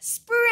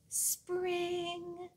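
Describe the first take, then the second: First: The word is said very loudly. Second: The word is said very quietly.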